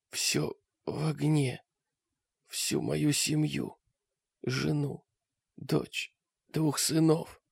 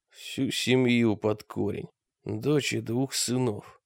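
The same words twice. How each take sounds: First: Faint slow dying rasp; wounded soldier gasping. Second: Slow, soft, heavy grief; sorrowful. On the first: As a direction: gasp it out with last breath. Dying man's words. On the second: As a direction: say it slowly in grief. Mrak grieving over dead man. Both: A narrator's reading.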